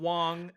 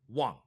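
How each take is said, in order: First: The pitch stays level and high throughout. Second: The pitch drops abruptly and sharply. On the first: "tone number one would be" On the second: "tone four is a, is abrupt"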